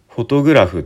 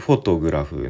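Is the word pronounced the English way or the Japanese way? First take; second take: Japanese; English. First: Japanese pronunciation, with no strong first-syllable stress. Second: English pronunciation, with strong stress on the first syllable. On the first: "普通に日本語だとフォトグラフとか言う" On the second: "英語だと多分フォトグラフ"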